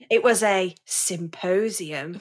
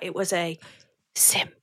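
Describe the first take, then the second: First: It is said in a normal speaking voice. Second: It is said in a soft, breathy ASMR whisper.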